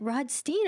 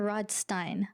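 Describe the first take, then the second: First: First option, Rodstein ending in "steen"; Rodstein as ROD-steen. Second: Second option, Rodstein rhyming its end with "fine"; Rodstein as ROD-stine. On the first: Host checking the guest's surname, Rodstein said ROD-steen. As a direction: offer Rodstein with a long ee at the end. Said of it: "is it Rodstein or Rodstein". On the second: Host checking the guest's surname, Rodstein said ROD-stine. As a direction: offer Rodstein with a long i at the end. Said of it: "my father always said Stein". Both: Shown as a demonstration.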